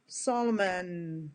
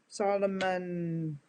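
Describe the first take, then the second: No difference in how they are said.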